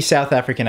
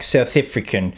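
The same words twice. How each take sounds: First: Said in the usual way. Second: Shaky South African accent attempt on "South African". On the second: Shown as a demonstration. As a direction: say "South African" with a clipped South African first vowel in "African". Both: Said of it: "That was my shitty South African accent attempt".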